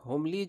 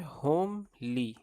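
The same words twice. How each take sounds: First: Said in the usual way. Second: homely slowly split as होम, then ली; split into syllables. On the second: Shown as a demonstration. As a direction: stretch homely into two separate beats, "home" and "lee". Splits word for memory hook.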